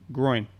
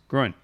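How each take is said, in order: First: The word is said slowly. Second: The word is said quickly. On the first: "can you say it slowly?" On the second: "you've started saying it faster"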